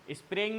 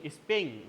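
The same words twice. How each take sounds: First: "स्प्रेइंग" said with an r after the sp, the mistaken form; "स्प्रेइंग" with an r after sp, shown as the error; wrong pronunciation. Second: "स्पेइंग" said with no r after the sp, speng; "स्पेइंग" as speng, the correct version set against the r version; correct pronunciation. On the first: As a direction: say "स्प्रेइंग" with the r sound as the wrong version. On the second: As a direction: say "स्पेइंग" clean, sp straight into the e, no r. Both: Shown as a demonstration. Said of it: "स्प्रेइंग नहीं".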